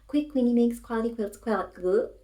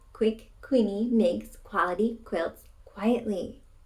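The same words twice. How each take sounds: First: The sentence is said at a faster pace. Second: The sentence is said at a slower pace.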